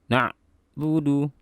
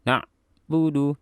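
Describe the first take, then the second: No difference in how they are said.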